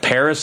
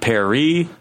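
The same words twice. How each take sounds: First: Said the English way, with a final s sound. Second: Said the French way, with no final s. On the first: This is the accepted local form. The speaker calls it right. "We call it Paris" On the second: This is the foreign form being rejected. The speaker calls it wrong. "not Paris"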